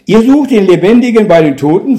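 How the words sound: It is said in an approving, agreeing tone. The listeners are doing exactly the right thing. "im Sinne einer Zustimmung"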